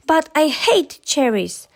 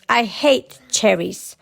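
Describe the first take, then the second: First: Higher-pitched cross protest, mildly shouted; mild storybook angry shout. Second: Slow, understated queenly roar; slow storybook roar, barely raised; mild roar. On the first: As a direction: protest crossly, leaning on HATE. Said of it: "shouted Angry". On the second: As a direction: draw it out crossly, as an angry queen. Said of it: "roared the queen". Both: A narrator's reading.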